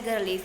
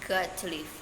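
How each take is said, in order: First: Got to is reduced to gotta. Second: Got to is said in full. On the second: "instead of"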